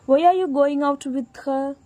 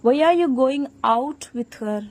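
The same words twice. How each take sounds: First: The stress is on "with her". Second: The stress is on "out".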